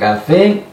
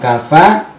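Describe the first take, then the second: First: The final vowel is a full 'e'. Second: The final vowel is a clear open 'a'. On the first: "bukan kafe" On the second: "Bukan kafa"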